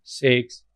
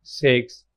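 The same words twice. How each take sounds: The two takes are said the same way.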